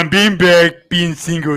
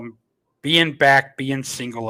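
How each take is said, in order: First: It is read in a put-on, imitated voice. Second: It is read in the speaker's ordinary voice.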